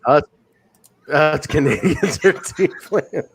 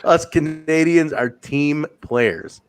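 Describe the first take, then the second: First: Slow, breaking up with laughter; laughing quote. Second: Drawn-out, evenly spaced words; slow, deliberate quote. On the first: Podcaster repeating a wrestler's line, slowly through laughter. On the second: Podcaster repeating a wrestler's line, slow and deliberate. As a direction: repeat it slowly with composure. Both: Retold or imitated.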